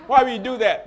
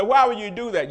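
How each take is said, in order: First: Laughing. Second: Loud, challenging "Why would you do that?"; a loud, rhetorical "Why would you do that?"; mock critics' question. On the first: Real, not acted. Repeats question, laughing. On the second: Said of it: "some people say".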